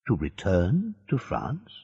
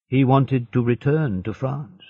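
First: Softer, "To return to France?" rising at the end; questioning echo. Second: Said in the usual way. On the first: A narrator's reading. Hidden voice querying the prisoner, "To return to France?" as a rising question. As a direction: echo "To return to France?" as a question, pitch lifting on the last word.

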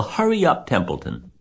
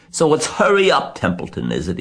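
First: Very high-pitched urging; urgent plea. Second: Mocking imitation of Wilbur. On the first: A narrator's reading. Wilbur to the dawdling rat, urgent plea. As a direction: squeal it in desperate haste. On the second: Templeton imitating Wilbur's voice, mocking imitation. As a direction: parrot the pleading in mockery. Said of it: "He began imitating Wilbur's voice".

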